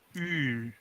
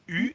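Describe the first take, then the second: First: The vowel is held noticeably longer. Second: The vowel is held only briefly.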